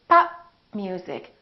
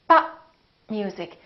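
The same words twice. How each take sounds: First: The final p is held closed, unreleased. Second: The final p is held closed, unreleased.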